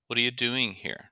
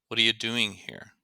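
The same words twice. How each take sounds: No difference in how they are said.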